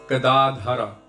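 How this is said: Said in full with the final vowel, Sanskrit style. "in Sanskrit"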